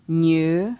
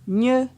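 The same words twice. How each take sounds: First: The syllable is said on a mid tone. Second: The syllable is said on a high tone. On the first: "Ton moyen" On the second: "Ton haut"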